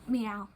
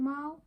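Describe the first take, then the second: First: The name sounds like 'meow'. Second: The name sounds like 'mao'.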